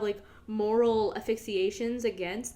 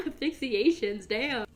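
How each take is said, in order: First: Said in the usual way. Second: Asphyxiations repeated through a laugh at her own slip; laughing at the word. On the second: Real, not acted. Catching her own wrong word, laughing. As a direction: laugh out Asphyxiations, mocking the mistake. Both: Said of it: "that's not how you use that word".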